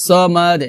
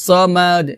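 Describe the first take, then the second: The two takes are said the same way.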